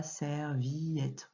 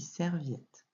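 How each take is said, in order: First: Serviette as ser-vi-ette, three syllables; wrong reading. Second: Serviette with vjɛt in one syllable; correct reading. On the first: Teacher contrasting wrong and right readings, ser-vi-ette. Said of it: "on ne dit pas serviette". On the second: Teacher contrasting wrong and right readings, ser-viette. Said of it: "on dit serviette". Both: Shown as a demonstration.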